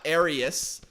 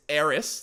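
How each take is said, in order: First: Arius with an added "ee" in the middle; three-syllable mispronunciation. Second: Eris said as two syllables; two-syllable pronunciation. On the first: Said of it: "there's nowhere that E could come from". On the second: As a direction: say Eris with no middle "ee". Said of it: "There's no third syllable obvious there". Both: Shown as a demonstration.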